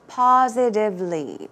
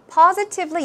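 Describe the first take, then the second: First: The T sound is softened or dropped. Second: The T sound is clearly pronounced. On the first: "but you can also say positively" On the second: "you can make the T sound"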